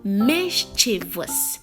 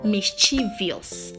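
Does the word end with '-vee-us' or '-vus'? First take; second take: -vus; -vee-us. First: The ending has no extra sound: '-vus'. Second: The ending has an extra 'ee' sound: '-vee-us'. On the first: The speaker calls it right. "It is mischievous" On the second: The speaker calls it wrong. "There is no letter I after the V. So don't even try to say mischievous"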